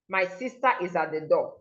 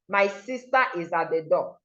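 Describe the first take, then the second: First: The R is dropped with a break before 'is'. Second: The R is dropped with a break before 'is'.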